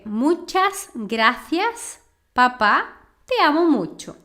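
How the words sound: It is said with a Spanish accent from Spain. "na Espanha, falaria"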